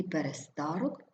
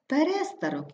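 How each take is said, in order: First: ПереСТАрок, stressed on СТА; stress on third syllable. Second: ПеРЕстарок, stressed on РЕ; stress on second syllable. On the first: Teacher showing double stress, stress on СТА. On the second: Teacher showing double stress, stress on РЕ. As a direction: hit РЕ in перестарок. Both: Shown as a demonstration. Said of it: "слова із подвійним наголосом".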